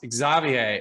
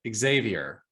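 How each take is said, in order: First: The name is said with a French pronunciation. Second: The name is said with an American pronunciation. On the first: "in France, if I believe if I'm correct, your name is pronounced" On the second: "here in the U S we pronounce it"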